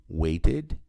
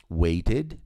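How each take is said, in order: No difference in how they are said.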